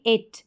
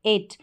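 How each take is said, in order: No difference in how they are said.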